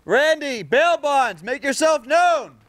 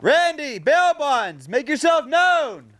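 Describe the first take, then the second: First: High, slow call to someone hidden. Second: High, slow call across the property. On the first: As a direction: shout slowly across the yard. Calling out across the property. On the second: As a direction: stretch the call out toward the house. Calls out again. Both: Real, not acted.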